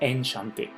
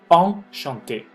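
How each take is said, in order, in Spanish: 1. La 'en' se dice como un 'en' simple. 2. La 'en' se dice como un 'on' nasal. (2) "pronúncienmela como on"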